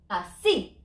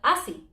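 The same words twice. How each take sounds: First: The stress is on the last syllable. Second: The stress is on the first syllable. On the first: The speaker calls it right. "I'm broken the rule. Así" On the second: The speaker calls it wrong. "and not así"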